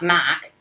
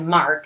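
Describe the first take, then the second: First: The name is said with the r dropped. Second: The name is said with the r pronounced. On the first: The speaker calls it right. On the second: The speaker calls it wrong.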